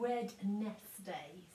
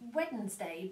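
First: The word is said in an unusual, careful way. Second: The word is said the normal everyday way.

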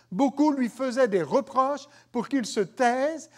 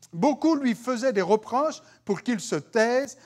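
No difference in how they are said.

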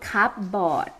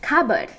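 First: The word is said following its written spelling. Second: The word is said in its reduced spoken form. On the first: The speaker calls it wrong. "You don't call it cupboard. เพราะว่าไปเห็นตัวเขียนก่อน" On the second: The speaker calls it right. "now you gotta call it cupboard"

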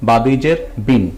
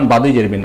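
First: The phrase is read at a normal pace. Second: The phrase is read quickly.

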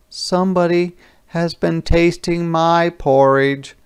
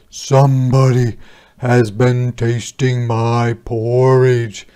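First: It is said in a middle-sized voice. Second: It is said in a great big voice.

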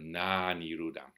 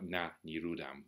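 First: The first A vowel is long. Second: The first A vowel is short. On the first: The not ceased thing is not. The speaker calls it right. "it's important that the A is long" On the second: The ceased thing is not. The speaker calls it wrong. "otherwise it sounds like na niruddhaṃ"

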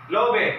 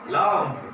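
First: The final E is sounded as an extra syllable. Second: The final E is silent, one syllable only. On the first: The speaker calls it wrong. "We cannot pronounce these words like that" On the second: The speaker calls it right. "It should be silent E"

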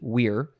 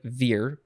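First: The word begins with a w sound. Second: The word begins with a v sound. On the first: "they would have pronounced it wir" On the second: "It looks like vir"

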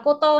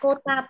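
First: The final vowel is an 'o' sound. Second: The final vowel is an open 'a' sound. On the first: The speaker calls it wrong. "không nào là Koto nhé các bạn nhé" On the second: The speaker calls it right. "Từ này Kota Baru"

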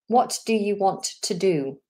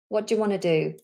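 First: All three T sounds are pronounced. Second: The T sounds are dropped, giving wanna. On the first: "Three T's"

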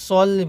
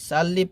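First: The first vowel is rounded, like 'o'. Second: The first vowel is open, like 'a'. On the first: The speaker calls it right. "সল্লি বলতে হবে" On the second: The speaker calls it wrong. "সাল্লি পড়লে হবে না"

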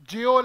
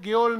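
First: The word begins with a soft j sound. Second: The word begins with a hard g sound. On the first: The speaker calls it right. "Right pronunciation जेओल है" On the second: The speaker calls it wrong. "गेओल नहीं है"

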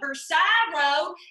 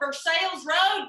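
First: Versailles is said with a French-style pronunciation. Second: Versailles is said with a local American pronunciation.

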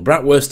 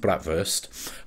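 First: It is said with a Yorkshire pronunciation. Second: It is said with a German pronunciation.

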